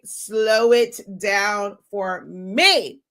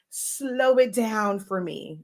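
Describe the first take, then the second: First: Very slow, each word drawn out long; much slower. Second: Slow, drawn-out request. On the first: Asking the AI again, now even slower. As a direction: crawl through it, word by word. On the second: Asking the AI to slow her words, slowly. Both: Shown as a demonstration.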